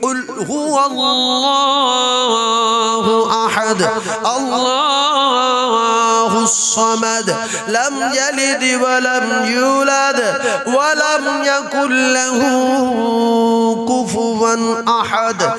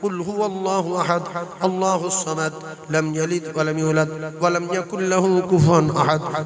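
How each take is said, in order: First: It is recited at a normal pace. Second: It is recited at a fast pace.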